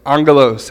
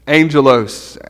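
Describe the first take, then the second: First: Angelos with a hard g, AHNG-guh-lohs; Greek pronunciation. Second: Angelos like the English angel plus -os; anglicized Greek word. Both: Shown as a demonstration. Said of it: "however you pronounce it".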